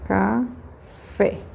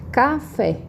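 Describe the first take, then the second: First: Café split into ca, pause, fé; syllable by syllable. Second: Café stretched out, stress on FÉ; stress on final syllable. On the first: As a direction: dictate café slowly in two separate syllables. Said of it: "vou escrever de novo". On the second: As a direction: call out Café to expose the stressed fé. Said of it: "qual que é a minha sílaba tônica?". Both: Shown as a demonstration.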